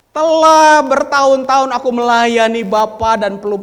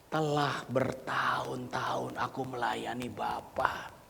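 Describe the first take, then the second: First: Loud, high-pitched take; loud son's quote. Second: Slow whisper of the son's words; whispered son's quote. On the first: Elder son loudly complaining to his father. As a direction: shout the son's words. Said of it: "Anak sulung ini berkata kepada ayahnya". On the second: Elder son's complaint, whispered by the preacher. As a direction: say it under your breath. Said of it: "Anak sulung ini berkata". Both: Acted.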